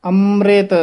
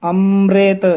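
The two takes are said the same way.

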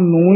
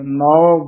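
First: The word ends in a nasal oo vowel. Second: The word ends in an au vowel. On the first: The speaker calls it wrong. "ਆਮ ਨੂੰ ਹੀ ਬੋਲ ਕੇ ਚਲੇ ਜਾਂਦੇ ਹਨ" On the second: The speaker calls it right. "ਨੌ ਬੋਲਣਾ ਹੈ"

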